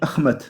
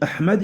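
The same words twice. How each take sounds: First: It has a kh sound and a t sound. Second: It has an h sound and a d sound. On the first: "Le ha est devenu kha et le d, le del est devenu ta" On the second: "au lieu de dire Ahmad"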